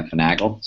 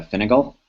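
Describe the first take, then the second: First: Finagle as fuh-NAG-ul, stressed in the middle; corrected Finagle. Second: Finagle with a short "fin" at the start; mispronounced Finagle. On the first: Repeating the correction back, Finagle said fuh-NAG-ul. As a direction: say Finagle with a reduced first syllable, fuh-NAG-ul. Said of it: "I believe it's Finagle". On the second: Asking how to pronounce the framework, mispronounced Finagle as FIN-uh-gul. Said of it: "I was mispronouncing it". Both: Real, not acted.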